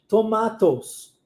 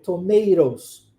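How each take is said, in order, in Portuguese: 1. Sotaque britânico, o segundo t é um t claro. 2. Sotaque americano, o segundo t soa como r. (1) "no inglês britânico, muito diferente" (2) "o segundo T, é pronunciado com o som de R"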